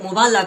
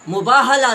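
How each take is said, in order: First: No 'h' sound is heard in the middle. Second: An 'h' sound is heard in the middle. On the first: The speaker calls it wrong. "उसको मुबाला कहा" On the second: The speaker calls it right. "मुबाहला लफ्ज है"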